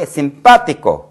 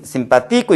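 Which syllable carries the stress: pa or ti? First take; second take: pa; ti. First: The stress is on the syllable pa. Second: The stress is on the syllable ti. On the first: The speaker calls it right. "불규칙하게 여기 오더라. 그래서 여기까지 유념을 강하게" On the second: The speaker calls it wrong. "모음으로 끝났으므로 여기 오는데 그러나 이것은 simpático 읽지 않고"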